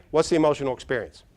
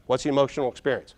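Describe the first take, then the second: No difference in how they are said.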